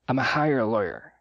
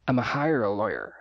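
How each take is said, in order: First: 'Going to' shrinks to a single 'a' sound. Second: 'Going to' shrinks to a single 'a' sound.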